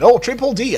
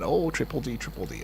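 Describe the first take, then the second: First: A bit louder and higher, caught out; realising the name, slightly raised; surprised correction. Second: Said in the usual way. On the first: Real, not acted. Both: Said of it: "I beg your pardon".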